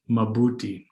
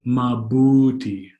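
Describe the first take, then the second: First: Said in the usual way. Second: Mabuti with a long, leaning BU; stress on middle syllable. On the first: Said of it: "So here's an example". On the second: Shown as a demonstration. Teacher giving an example of proper emphasis, "mabuti" with drawn-out middle stress. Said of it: "the proper emphasis should go within".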